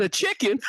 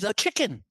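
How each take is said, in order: First: High, incredulous echo breaking into laughter; mocking disbelief with a laugh; scoffing eagle. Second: High, timid little answer; acted small, scared reply; timid chick. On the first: Eagle scoffs at chick's answer.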